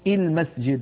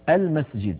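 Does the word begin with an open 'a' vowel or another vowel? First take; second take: another vowel; open a. First: The first vowel is not an open 'a' sound. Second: The first vowel is an open 'a' sound. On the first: The speaker calls it wrong. "ولا يقولون" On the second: The speaker calls it right. "تكون الهمزة مفتوحة دائما، فيقولون المسجد"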